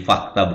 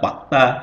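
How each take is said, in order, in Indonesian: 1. Kata ini diawali dengan bunyi f. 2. Kata ini diawali dengan bunyi p. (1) "jadi fakta" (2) "diganti menjadi P ya, ... bukan fakta"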